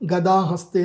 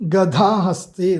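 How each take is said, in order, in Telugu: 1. రెండవ అక్షరంలో ఒత్తు లేని, సాధారణ d ఉంది. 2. రెండవ అక్షరంలో ఒత్తు ఉన్న dh ఉంది. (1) "తప్పు చదివా" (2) "ధ ఒత్తు ధ పలకాలి"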